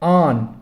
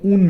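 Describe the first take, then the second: First: The vowel is a long open 'aa'. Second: The vowel is a rounded 'oo'. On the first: This is the standard form. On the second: This is the colloquial form.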